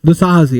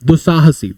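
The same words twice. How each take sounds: First: दुस्साहसी said short, falling and final; stated with emphasis. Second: दुस्साहसी said with a falling close; answer stated firmly. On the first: Teacher wrapping up the example, दुस्साहसी falling and final. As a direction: drop दुस्साहसी as the punchline. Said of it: "वो ऐसा बंदा हो जाएगा कि बस". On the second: Teacher answering the class, दुस्साहसी with a falling close. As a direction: land दुस्साहसी down like a final answer. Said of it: "तो आदमी कैसा हो जाता है". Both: Shown as a demonstration.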